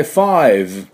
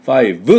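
First: ファイブ with the final V only vibrated; "five" ending on buzz. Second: ファイブ with a clear U after the last consonant; wrong "five", added U. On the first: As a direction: end ファイブ on a lip buzz, no vowel. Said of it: "振動させて終わりでいいです". (ファイブの最後はVの振動で終わる) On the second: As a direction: say ファイブ ending in a full Japanese "bu". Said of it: "Uをつけてはいけません". (最後にUをつけた悪い例のファイブ) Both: Shown as a demonstration.

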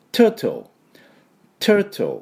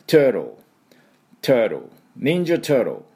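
First: Turtle as "TUH-tul", clear middle T; British crisp T. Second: Turtle as "TUR-dl", middle T softened away; American flapped T. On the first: Teacher imitating British speakers, turtle with a crisp T. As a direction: say turtle British-style, no R, T fully sounded. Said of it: "多分イギリス人が発音すると". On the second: Teacher showing the American way, turtle without a clear middle T. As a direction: say turtle American-style, R-coloured with no crisp T. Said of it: "途中のTの発音はほとんどアメリカ人は出さない". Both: Shown as a demonstration.

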